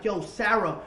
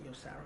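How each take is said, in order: First: Loud, raised-pitch angry address; retold rage, calling her out forcefully; raging. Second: Very soft, low-key address; retold calming down, barely voiced; subdued. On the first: Man accusing his girlfriend mid-fight, raging. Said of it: "I'm, I'm, I'm raging". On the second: Man approaching girlfriend after he stopped, subdued. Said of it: "So I stopped".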